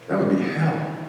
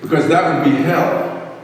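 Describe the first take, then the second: First: Hushed, softer echo of 'hell'; softly repeated 'That would be hell'; quiet repeat. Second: Said in the usual way. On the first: Shown as a demonstration. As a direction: drop your voice and let it land.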